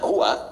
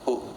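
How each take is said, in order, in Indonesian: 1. Kata itu berakhir dengan vokal akhirnya yang dibunyikan. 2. Kata itu berakhir tanpa vokal akhirnya.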